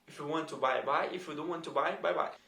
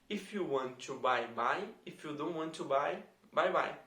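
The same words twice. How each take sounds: First: It is said at a faster pace. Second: It is said at a normal, slower pace.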